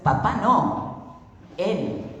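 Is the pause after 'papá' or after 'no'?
after no. The pause comes after the word no. It is not the father but him. "En un caso es"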